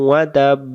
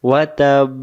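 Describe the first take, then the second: The two takes are said the same way.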